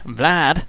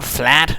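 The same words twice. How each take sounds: First: The name is said with an English pronunciation. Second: The name is said with a German pronunciation. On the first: The speaker calls it right. "Vlad, of course, not being German" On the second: The speaker calls it wrong. "Not Vlad"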